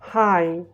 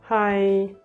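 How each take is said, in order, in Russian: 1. Тон падает от начала до конца. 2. Тон ровный от начала до конца. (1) "здесь у нас звук идёт вниз" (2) "звук не идёт вверх, не идёт вниз"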